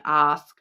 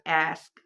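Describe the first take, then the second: First: Said in the usual way. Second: "ask" with a flat short a as in cat; "ask" said the American way, the a like in "hat"; "ask" with the front a vowel of "cat". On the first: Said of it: "I would say ask". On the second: Shown as a demonstration. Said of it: "it's coming through as ask rather than ask".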